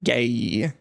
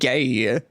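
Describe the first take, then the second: First: The name is said with an 'ay' vowel. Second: The same.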